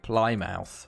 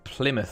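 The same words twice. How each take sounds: First: It is said with an American pronunciation. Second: It is said with a British pronunciation.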